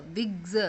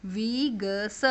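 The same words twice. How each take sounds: First: Said in the usual way. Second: विग्स broken into slow sounds, vee-guh-suh; phonic sounding-out. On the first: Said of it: "एक से ज़्यादा है तो S लग गया". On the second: Shown as a demonstration. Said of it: "phonic sound अगर ई है".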